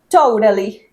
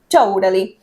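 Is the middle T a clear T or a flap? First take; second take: flap; flap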